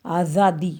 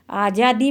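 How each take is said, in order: First: "आज़ादी" with a buzzing z, as aa-zaa-dee; nukta Z sound. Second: "आज़ादी" said with a j, as aa-jaa-dee; J sound, no nukta. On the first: Teacher modelling the nukta for pupils, "आज़ादी" said with a z. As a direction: say "आज़ादी" with z, not j. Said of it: "फिर इसको पढ़ेंगे आज़ादी". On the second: Teacher showing pupils the word before the nukta, "आज़ादी" with a j. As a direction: say "आज़ादी" with a plain j instead of z. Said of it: "जा के नीचे". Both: Shown as a demonstration.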